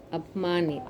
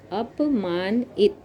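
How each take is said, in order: First: Said in the usual way. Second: Teacher spelling it out slowly; slow syllable-by-syllable. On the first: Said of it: "teacher says word whole". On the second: Shown as a demonstration. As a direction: sound out अपमानित slowly, part by part. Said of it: "teacher sounds out word slowly".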